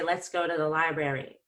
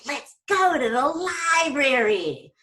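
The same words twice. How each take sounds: First: The pitch stays flat throughout. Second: The pitch swings wildly and excitedly. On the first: "That would be sort of boring" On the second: "I didn't get all crazy"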